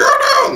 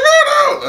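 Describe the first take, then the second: First: High, airy gasping oh no; mock shock. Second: High squealed oh no; mock shock. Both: Reviewer mocking characters' dramatic realizations, high squeal. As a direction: squeal it in fake alarm. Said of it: "they're like".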